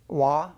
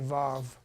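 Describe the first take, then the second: First: The word begins with a w sound. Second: The word begins with a v sound.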